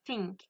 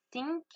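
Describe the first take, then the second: First: "think" with tongue between the teeth for TH; correct TH. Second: "Think" without the tongue between the teeth, TH lost; mispronounced TH. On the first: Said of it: "j'ai mis ma langue entre mes dents". (prononcer « think » avec la langue entre les dents) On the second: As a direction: say "Think" wrongly, without a true English TH. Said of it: "je l'ai mal dit". (prononcer « Think » mal, sans la langue entre les dents) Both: Shown as a demonstration.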